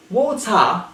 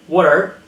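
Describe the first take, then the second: First: "Water" as "waw-tah"; dropped R. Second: "water" as "wah-der"; pronounced R. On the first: Teacher showing British speech, "Water" without R. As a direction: end "Water" on an open ah. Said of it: "they don't pronounce the R". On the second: Teacher showing what to avoid, "water" with R. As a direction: end "water" on a curled R. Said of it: "not water". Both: Shown as a demonstration.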